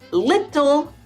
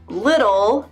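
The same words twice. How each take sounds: First: The T is a crisp, clear T sound. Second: The T is a soft D-like flap. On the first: The speaker calls it wrong. "Mm-mm, nope" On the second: The speaker calls it right. "it sounds more like a D"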